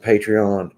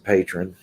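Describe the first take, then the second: First: The word is said with three syllables. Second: The word is said with two syllables. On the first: The speaker calls it right. "but it's um, Patreon" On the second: The speaker calls it wrong. "We pronounce it patron"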